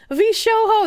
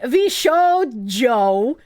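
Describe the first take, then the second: First: The middle consonant is a breathy H sound. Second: The middle consonant is a hard J sound. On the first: It sounds magical. The speaker calls it right. "that's just how I pronounce it. I pronounce the J like, huh" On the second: It sounds silly. The speaker calls it wrong. "I don't like saying Vishojo. It sounds silly"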